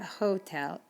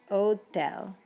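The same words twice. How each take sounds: First: The word starts with an audible H sound. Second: The word starts with no H sound. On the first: The speaker calls it wrong. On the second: The speaker calls it right.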